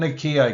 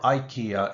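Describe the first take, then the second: First: The name is said in a non-English way. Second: The name is said in an English way.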